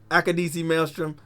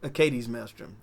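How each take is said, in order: First: The first word has four syllables, ending in 'ee'. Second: The first word has three syllables, ending in 'eez'. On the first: This is the name used in the new show. "they called it the Akadisi Maelstrom in this one" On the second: This is the name used in the earlier film. "in Solo it's called the Acades Maelstrom"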